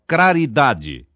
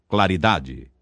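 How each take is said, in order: First: An R sound replaces the L. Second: The L sound is pronounced. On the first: The speaker calls it wrong. "Lambdacismo é a pronúncia defeituosa da letra L" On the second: The speaker calls it right. "pela forma vernácula"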